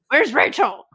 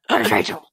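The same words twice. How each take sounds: First: It is said in a normal reading voice. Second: It is said in a put-on Batman voice.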